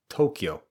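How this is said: It is said with English stress and vowels. The speaker calls it wrong. "not like it would be pronounced typically in English, which is more like Tokyo"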